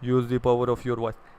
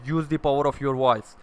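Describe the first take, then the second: First: The voice sounds weak and unsure. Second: The voice sounds strong and confident.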